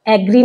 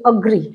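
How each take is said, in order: First: The first vowel sounds like 'eh'. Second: The first vowel sounds like 'uh'. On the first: The speaker calls it wrong. "एग्री नहीं बोलते" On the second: The speaker calls it right. "अग्री होता है ये, अ, ये वाला अ होता है"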